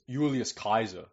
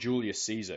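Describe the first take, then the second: First: The second name starts with a K sound. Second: The second name starts with an S sound. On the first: The speaker calls it right. "It's Julius Kaiser" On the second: The speaker calls it wrong. "it's not Julius Caesar"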